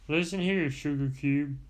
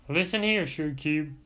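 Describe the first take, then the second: Both takes have the same delivery.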